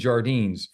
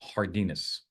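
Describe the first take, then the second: First: The name is pronounced with English sounds. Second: The name is pronounced with Spanish sounds. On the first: The speaker calls it wrong. "I actually have been saying Jardines for many, many years because I don't speak Spanish" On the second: The speaker calls it right. "I'm going to now do the right thing and say it correctly"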